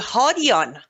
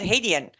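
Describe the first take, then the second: First: The name is said with its original Persian sounds. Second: The name is said with simplified English sounds. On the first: This is how the name is properly said. The speaker calls it right. "the correct pronunciation for Shahram's last name is actually" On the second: The name was adapted for English speakers. The speaker calls it wrong. "He has made the ultimate sacrifice to make it"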